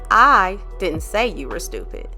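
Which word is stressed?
I. The word 'I' carries the main stress. Someone else said it. "you didn't say it, but somebody said it"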